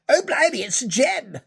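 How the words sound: It is said in an exaggerated upper-class accent.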